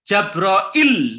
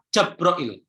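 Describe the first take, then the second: First: The final l sound is doubled and held. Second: The final l sound is single and short. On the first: "lamnya itu tasydid" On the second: "yang keempat Jabroil. Tanpa ya"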